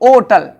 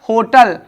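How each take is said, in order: First: The word starts with a vowel, no h. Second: The word starts with a clear h sound. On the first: This is the older pronunciation. "ओटल पढ़ते थे इसको" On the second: This is the current pronunciation. "होटल हा से हो गया है"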